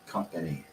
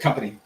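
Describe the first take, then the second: First: Each syllable is said slowly and fully. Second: The syllables are rushed together quickly. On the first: The speaker calls it right. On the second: The speaker calls it wrong.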